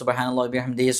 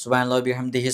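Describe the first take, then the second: First: The phrase ends with 'hi', linked to what follows. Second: The same.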